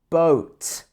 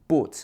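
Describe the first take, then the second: First: The O vowel is long and gliding. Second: The O vowel is short and single. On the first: The speaker calls it right. "It should be boat" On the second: The speaker calls it wrong. "It's not boat"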